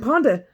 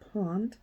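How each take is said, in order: First: The word ends with an extra vowel sound. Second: The word ends cleanly on the consonant. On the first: The speaker calls it wrong. "I don't speak proper English" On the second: The speaker calls it right. "Let me make sure I say this correctly"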